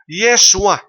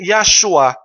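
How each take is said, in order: First: The name begins with the sound 'Ye'. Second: The name begins with the sound 'Ya'. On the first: The first syllable avoids the Father's name. The speaker calls it wrong. "mulitok nga Yeshua" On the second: The first syllable keeps the Father's name. The speaker calls it right. "dili Yeshua"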